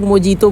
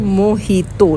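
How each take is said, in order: First: The middle consonant is a J sound. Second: The middle consonant is an H sound. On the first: The speaker calls it wrong. "बहुत लोग मोजीतो बोलते हैं" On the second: The speaker calls it right. "जे को ना ह बोलते हैं, तो ये हो गया मोहितो"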